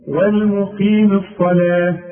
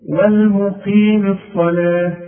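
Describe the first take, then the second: No difference in how they are said.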